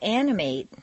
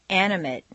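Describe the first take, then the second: First: The final syllable has a full 'ate' vowel. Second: The final syllable has a reduced vowel. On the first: It is used as a verb. "it's a full A sound" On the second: It is used as a noun or adjective. "completely reduced"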